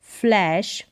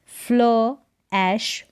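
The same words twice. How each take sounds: First: Said in the usual way. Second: फ्ल ऐश split by a pause; two separate parts, फ्ल and ऐश; sounded out. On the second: Shown as a demonstration. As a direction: say फ्ल, wait, then ऐश. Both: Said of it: "फ्ल होगा".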